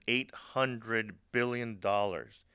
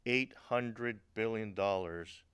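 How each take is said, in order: Both takes have the same delivery.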